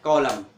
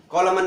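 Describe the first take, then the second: First: कॉलम closing on m; silent N. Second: कॉलमन with an extra n at the end; sounded N. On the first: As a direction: say कॉलम without the final n. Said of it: "एन silent". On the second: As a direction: say कॉलमन, wrongly voicing the n. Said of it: "कॉलमन नहीं बोलते". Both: Shown as a demonstration.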